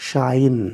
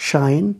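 The two takes are said the same way.

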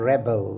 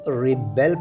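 First: The first syllable sounds like reb. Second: The first syllable sounds like rib. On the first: It names a person who revolts. "ये लफ्ज़ है रेबल" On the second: It means to revolt. "इसे हम रिबेल pronounce करते हैं"

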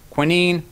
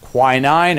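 First: It is said with a British pronunciation. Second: It is said with an American pronunciation. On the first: "British pronunciation" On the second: "American pronunciation"

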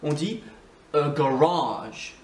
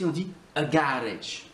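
First: The stress is on the second syllable. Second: The stress is on the first syllable. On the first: This is how it is said in English English. "En anglais, on dit a garage. C'est ici qu'on accentue" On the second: This is how it is said in Scottish English. "en écossais, c'est sur la première syllabe"

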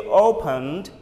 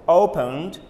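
Both takes have the same delivery.

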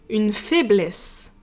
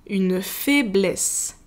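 The two takes are said the same way.

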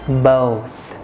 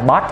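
First: The word ends with a breathy th sound. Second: The word ends with a hard t sound. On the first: The speaker calls it right. "Ở cuối là mình sẽ thổi hơi đó ở cuối ha" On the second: The speaker calls it wrong. "Chứ không phải là bot ha"

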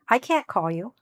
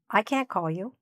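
First: The negative is contracted, with a soft final T. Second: The negative is contracted, with a soft final T.

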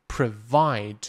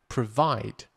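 No difference in how they are said.

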